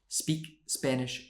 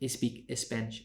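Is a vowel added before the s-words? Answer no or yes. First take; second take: no; yes. First: The s-words start directly with the s sound. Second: An extra vowel is added before the s-words. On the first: The speaker calls it right. "You need to say" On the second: The speaker calls it wrong.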